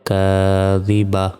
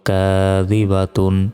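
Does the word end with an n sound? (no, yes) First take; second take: no; yes. First: The word ends without a final n sound. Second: The word ends with a final n sound. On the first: The reader stops on this word. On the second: The reading continues without stopping.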